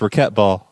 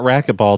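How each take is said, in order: First: It is said with a European pronunciation. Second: It is said with an ordinary pronunciation. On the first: The speaker calls it right. "That's how us Europeans pronounce it" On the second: The speaker calls it wrong. "It's not racquetball"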